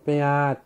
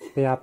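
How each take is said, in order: First: The word is said with a heavier sound. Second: The word is said with a light, plain sound. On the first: This is how the speaker's own community says it. The speaker calls it right. "আওয়াজে দা একটু ইয়া ভারী করে কইতো লাগে" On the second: This is the standard Bengali way of saying it. The speaker calls it wrong. "পেঁয়াজ নয়"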